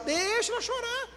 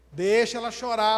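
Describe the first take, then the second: First: Exasperated insistence. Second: Said in the usual way. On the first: Acted. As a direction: stretch the first word and soar high. Exasperated repeat after an objection.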